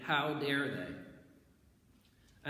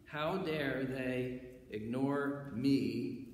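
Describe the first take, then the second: First: Slow drawn-out how dare they; indignant. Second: Slow sing-song how dare they ignore me; indignant. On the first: Preacher voicing the offended rulers, slow and indignant. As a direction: let the outrage stretch each word. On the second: Preacher acting out the proud self, slow and singsong. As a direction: stretch it out like wounded pride. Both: Acted.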